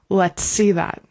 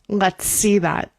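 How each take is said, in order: Both takes have the same delivery.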